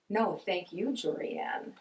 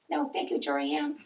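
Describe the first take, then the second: First: It is said at a normal pace. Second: It is said at a quicker pace.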